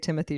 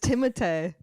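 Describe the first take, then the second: First: The name is said with an English pronunciation. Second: The name is said with a French pronunciation. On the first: The name is adapted to American habits. "can we say Timothy Chalamet?" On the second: The name follows its original culture. "it's a French name"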